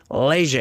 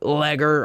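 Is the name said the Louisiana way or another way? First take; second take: Louisiana; another way. First: The name has a Louisiana-style pronunciation. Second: The name has a different, non-Louisiana pronunciation. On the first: The speaker calls it right. "I say Leger because I'm from Louisiana" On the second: The speaker calls it wrong. "It's not Leger"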